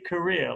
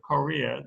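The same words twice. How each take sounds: First: The first syllable has a reduced vowel. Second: The first syllable has a full vowel. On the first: People will sometimes misunderstand it. "like I do" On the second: Nobody will misunderstand it. "with a, a full vowel in the first syllable"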